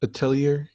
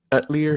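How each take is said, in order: First: "Atelier" said as uh-TELL-ee-er, questioning; alternative pronunciation. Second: "Atelier" said as AT-lee-er; alternative pronunciation. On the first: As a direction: stress TELL in "Atelier", ending on an r. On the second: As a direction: stress the first syllable of "Atelier", squeezed to AT-lee-er. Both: Shown as a demonstration. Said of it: "they pronounce it so many different ways".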